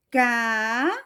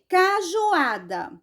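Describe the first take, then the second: First: Ca-ju-a-da, each syllable stretched with long pauses; separated syllables. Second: Said in the usual way. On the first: Shown as a demonstration. Teacher separating syllables for pupils, Cajuada broken apart slowly. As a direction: break Cajuada into four slow, separate syllables. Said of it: "vou separar aqui". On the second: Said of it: "aí aqui tá mandando separar".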